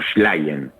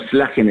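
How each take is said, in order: First: The name begins with an sh sound. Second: The name begins with a plain s sound. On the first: This is the original Polish pronunciation. "en polaco sería como si fuera una S H" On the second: This is the Spanish pronunciation. "en castellano con Slagen es suficiente"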